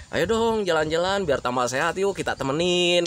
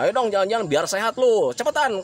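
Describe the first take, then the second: First: Easygoing, friendly invitation; gentle persuasion in a relaxed voice; pleasant coaxing. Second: Impatient, raised-pitch nagging; irritating order dressed as an invitation; pushy urging. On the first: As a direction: coax them kindly, without pushing. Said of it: "intonasinya itu berbeda, eh, menyenangkan". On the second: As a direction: hurry them along bossily. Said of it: "Berbeda ketika kalian mengajaknya". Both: Shown as a demonstration.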